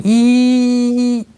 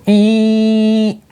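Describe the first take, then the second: First: Drawn-out squealing ee like a bus alarm; high-pitched alarm squeal. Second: Much higher piercing ee of a bus alarm; short high alarm beep imitation; shrill alarm squeal. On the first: Retold or imitated. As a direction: stretch out a slow squealing alarm sound. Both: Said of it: "high-pitched squealing ee".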